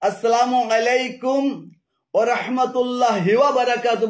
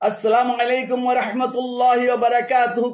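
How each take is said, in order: First: Breaks split word endings onto the next word. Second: The phrase flows with words kept whole. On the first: The speaker calls it wrong. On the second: The speaker calls it right.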